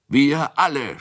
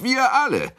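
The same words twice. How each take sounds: First: High, loud tipsy shout. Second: Very high, loud tipsy shout. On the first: Tipsy Kunicke shouts that everyone will come. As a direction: yell out eagerly. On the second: Tipsy Kunicke shouts again that they all will go. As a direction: yell it louder the second time. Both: A narrator's reading. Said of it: "schrie Kunicke".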